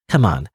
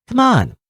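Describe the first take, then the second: First: A low-pitched, contained nudge; low urging. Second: High coaxing that swoops down; high-pitched urging. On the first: Coaxing someone to come along, low-pitched. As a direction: urge them along, keeping the pitch down. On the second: Coaxing someone to come along, high-pitched and insistent. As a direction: leap up high to plead, then fall. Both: Acted. Character urged along, two contrasting takes.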